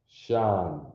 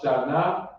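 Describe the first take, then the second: First: The syllable ends on the n. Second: A vowel sound follows the n. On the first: The speaker calls it right. "the end becomes soft" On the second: The speaker calls it wrong. "No, it's not"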